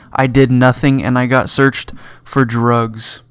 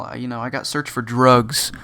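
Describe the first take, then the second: First: Louder, slow, each word leaned on; drawn-out outraged protest; indignant emphasis. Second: Said in the usual way. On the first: Retold or imitated. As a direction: hammer home the injustice. Indignant retelling to friends.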